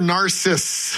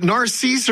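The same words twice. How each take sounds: First: Narcissus cut to "nar-SISS"; short "i" in Narcissus, ending on the s; pronunciation choice. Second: Narcisse said "nar-SEESE"; long "ee" in the second syllable of Narcisse; pronunciation choice. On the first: Host offers co-host the other way, Narcissus as "nar-SISS". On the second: Host asks co-host how the place is said, Narcisse as "nar-SEESE". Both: Shown as a demonstration. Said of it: "is it Narcisse or Narcissus".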